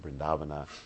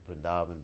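First: The final vowel is pronounced. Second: The final vowel is dropped. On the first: This is the Sanskrit way of saying it. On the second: This is the Hindi way of saying it.

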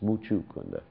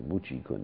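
First: The second syllable has an 'oo' vowel. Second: The second syllable has an 'ee' vowel. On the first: The speaker calls it right. "It's Muchukunda" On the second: The speaker calls it wrong. "Sometimes people pronounce this demon's name wrong. They say Muchikunda"

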